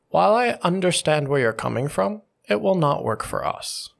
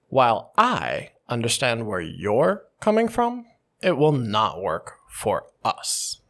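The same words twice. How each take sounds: First: The sentence is said flat with no stressed words. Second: The pronouns I, you and us are stressed. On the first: "a quick baseline" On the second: "I stress all the pronouns"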